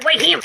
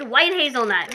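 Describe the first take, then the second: First: "White Him" read off the label with a nasal clipped "Him", slightly raised; mispronounced label. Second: Said in the usual way. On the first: Shown as a demonstration. Vlogger misreading a snack label, pronounced "White Him". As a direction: sound out "White Him" like a wrong guess at the foreign label. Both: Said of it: "It probably means white hazelnut".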